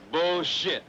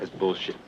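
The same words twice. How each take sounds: First: Bullshit thrown out higher and louder, falling hard; emphatic repeat. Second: Said in the usual way. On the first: Acted. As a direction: punch the second Bullshit up and loud.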